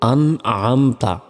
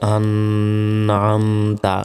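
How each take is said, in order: First: The n is short and clear without nasal hum. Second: The n is held with a long nasal hum. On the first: The speaker calls it right. "গুণনা ছাড়া স্পষ্ট করে পড়তে হবে" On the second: The speaker calls it wrong. "এভাবে বলা যাবে না"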